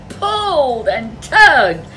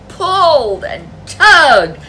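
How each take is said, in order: Both takes have the same delivery.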